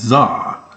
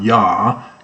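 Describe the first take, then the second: First: The name begins with a z sound. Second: The name begins with a y sound. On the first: The speaker calls it right. "it's Zah" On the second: The speaker calls it wrong. "it's not Yah"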